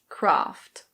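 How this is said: It is said in a British English accent. "In British English, this is pronounced Kraft"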